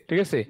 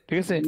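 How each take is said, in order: Both takes have the same delivery.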